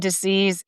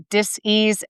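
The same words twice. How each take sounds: First: Said in the usual way. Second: "dis-ease" as two words, dis and ease; split-word pronunciation. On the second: Shown as a demonstration. Health host playing on disease, "dis-ease" split into dis and ease.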